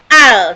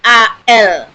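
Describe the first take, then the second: First: It is read as one short syllable. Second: Each letter name is said separately. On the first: The speaker calls it wrong. "bukan al" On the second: The speaker calls it right. "disebut semua hurufnya A L"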